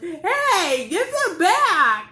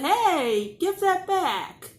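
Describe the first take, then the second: First: It is yelled loudly. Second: It is said more quietly.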